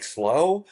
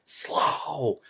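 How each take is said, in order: First: "Slow" rising high into a question. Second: "Slow" drawn out with a falling tune; emphatic SLOW. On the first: Twin checking with the friend, "Slow" as a rising question. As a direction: lift "Slow" at the end, unsure. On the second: Friend warning the twin, "Slow" long and falling. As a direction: stretch "Slow" and let it drop. Friend's statement against twin's question. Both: Retold or imitated.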